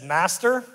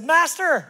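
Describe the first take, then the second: First: Tentative address to the master, rising; less-than-eager servant beginning his excuse; wary servant. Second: High, loud call to the master; proud servant reporting. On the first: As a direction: open carefully, with a lifted ending. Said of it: "servant with the one bag". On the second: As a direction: call out eagerly, high and falling. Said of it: "came forward and said". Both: Acted.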